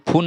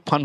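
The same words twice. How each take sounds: First: फोन said as "phoon", U as oo; wrong U sound. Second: फन with a short uh vowel. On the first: Teacher rejecting a reading of fun, फोन as "phoon". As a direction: say फोन with an oo vowel. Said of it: "लेकिन ये फोन नहीं". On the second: Teacher giving the correct reading, फन with an uh sound. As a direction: say फन like English "fun". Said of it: "फन होगा". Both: Shown as a demonstration.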